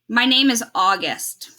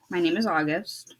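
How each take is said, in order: First: It is said loudly. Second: It is mumbled quietly.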